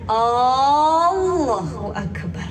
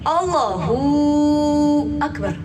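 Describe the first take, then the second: First: The opening 'a' sound is drawn out long. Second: The 'hu' sound is drawn out long. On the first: "ini yang dipanjangin alifnya" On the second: "hu-nya yang dipanjangin"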